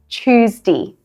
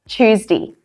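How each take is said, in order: Both takes have the same delivery.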